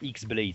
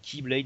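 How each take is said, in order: First: The word begins with an 'ex' sound. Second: The word begins with a 'key' sound. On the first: The speaker calls it wrong. "ça se dit pas X-Blade" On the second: The speaker calls it right. "ça se dit Keyblade"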